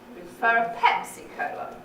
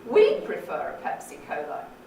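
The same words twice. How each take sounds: First: The main fall is on the word Pepsi. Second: The main fall is on the word we'd. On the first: "It's on the Pepsi, isn't it?" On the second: "We'd, absolutely"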